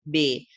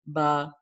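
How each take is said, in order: First: It ends with an 'ay' vowel sound. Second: It ends with an 'ah' vowel sound. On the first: This is how the letter is read in Urdu. "हम उर्दू में इसको बे पढ़ते हैं" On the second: This is how the letter is read in Arabic. "वो जो ए की साउंड है वो आ से कन्वर्ट हो जाती है"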